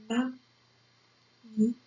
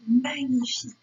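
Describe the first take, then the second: First: "Magnifique" very slowly, long pauses between syllables; slow writing-pace "Magnifique". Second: Said in the usual way. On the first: Shown as a demonstration. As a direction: dictate "Magnifique" as ma, gni, fique. Teacher dictates word by syllables.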